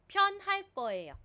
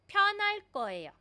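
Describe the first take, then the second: The two takes are said the same way.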